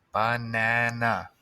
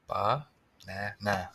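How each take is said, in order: First: "banana" stretched out slowly, each syllable clear; slow, careful. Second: Very slow, settling. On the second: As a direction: land "Banana" slowly and softly. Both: Shown as a demonstration. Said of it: "spelling banana".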